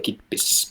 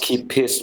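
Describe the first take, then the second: First: It sounds like one word, 'kippis'. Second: It sounds like the English words 'keep his'. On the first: The speaker calls it right. "but you say kippis" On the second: The speaker calls it wrong. "So not keep his"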